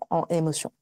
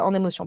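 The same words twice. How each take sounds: First: The n is not linked to the next word. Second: The n links smoothly into the next word. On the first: The speaker calls it wrong. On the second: The speaker calls it right.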